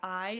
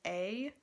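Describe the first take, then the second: First: The vowel sounds like 'eye'. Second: The vowel sounds like 'ay'. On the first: The speaker calls it right. "It's gonna be I" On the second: The speaker calls it wrong. "It's not gonna be A"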